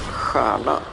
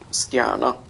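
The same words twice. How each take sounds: First: The word is said without a T sound. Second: The word is said with a T sound. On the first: This is the modern pronunciation. "we pronounce it as stjärna, so you can't hear the T there anymore" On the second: This is the pronunciation from a hundred years ago. "people actually said stjärna with the T"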